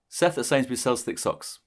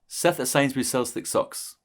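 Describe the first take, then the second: Both takes have the same delivery.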